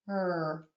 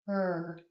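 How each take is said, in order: Both takes have the same delivery.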